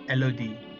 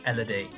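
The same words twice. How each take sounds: First: The name has a French pronunciation. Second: The name has an English pronunciation.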